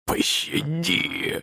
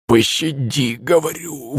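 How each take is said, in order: First: Very slow, voiceless wheezed plea; forced-out wheeze. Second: Strained, pitched-up hoarse plea; blurted plea. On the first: Beaten guard begging for mercy, hoarse and forced out. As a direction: squeeze the word out through a swollen throat. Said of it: "выдавил он". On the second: Beaten guard repeating his plea, blurted and strained. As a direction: blurt it out on what little voice is left. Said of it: "выпалил он". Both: A narrator's reading.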